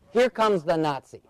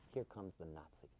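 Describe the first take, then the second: First: Said in the usual way. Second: Very low, hushed murmur; barely audible low aside; sly aside. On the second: Retold or imitated. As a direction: lean over and mutter it confidentially. Wife mimics friend's sly aside.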